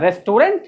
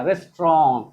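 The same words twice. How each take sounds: First: RESTAURANT with every syllable and final NT sounded; wrong pronunciation. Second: RESTAURANT shortened to res-tron, falling; correct pronunciation. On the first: Teacher mocking the common error, रेस्टोरेंट with a hard final NT. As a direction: say रेस्टोरेंट fully spelt out, rising at the end. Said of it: "ये क्या होता है?". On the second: Teacher models the word for students, रेस्टोरेंट as "res-tron". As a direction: say रेस्टोरेंट as two beats, final T dropped. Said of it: "क्या बोलेंगे?". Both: Shown as a demonstration.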